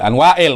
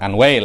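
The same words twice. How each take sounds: First: The name has a glottal break before the i. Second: The name runs together with no glottal break. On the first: It is the proper name. The speaker calls it right. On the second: It sounds like the word meaning woe. The speaker calls it wrong.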